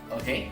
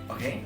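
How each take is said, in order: No difference in how they are said.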